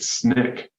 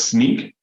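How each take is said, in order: First: It has a short 'i' vowel. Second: It has a long 'ee' vowel. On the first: "there are others that pronounce it Snick" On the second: "one of the founders pronounces it as Sneak"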